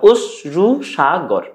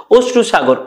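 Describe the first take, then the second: First: "অশ্রুসাগর" split slowly into its syllables. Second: Said in the usual way. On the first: Shown as a demonstration. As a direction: break "অশ্রুসাগর" into slow syllables. ("অশ্রুসাগর" ধীরে দলে দলে ভেঙে উচ্চারণ) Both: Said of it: "দল নির্ণয় করতে পারি".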